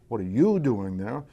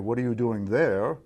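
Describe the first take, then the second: First: The stress falls on the word you. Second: The stress falls on the word there. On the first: The question is about the person. "It's about the person" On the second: The question is about the place. "It's a question about place and position"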